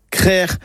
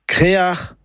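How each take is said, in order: First: Crère in one syllable, open e; Breton pronunciation. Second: Créar in two syllables, é then a; North Finistère pronunciation. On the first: Teacher models the other form for listeners, Breton pronunciation. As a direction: say crère with a throaty final. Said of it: "la bonne production est crère ou créar". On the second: Teacher models the regional form for listeners, North Finistère pronunciation. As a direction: say créar with a throaty final. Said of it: "une prononciation plus du Nord Finistère". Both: Shown as a demonstration.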